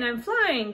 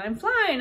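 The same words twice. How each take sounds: First: Joyful shout. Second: Very high, loud gleeful shout; joyful shout. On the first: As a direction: echo it, still thrilled but settling. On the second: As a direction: whoop it out to the sky. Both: Acted. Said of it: "Gus shouted to the sky".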